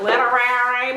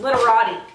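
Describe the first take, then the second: First: The word ends with a 'ree' sound. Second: The word ends with a 'tee' sound. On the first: The speaker calls it wrong. "I say it wrong. I'm like literary" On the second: The speaker calls it right. "That's what it is"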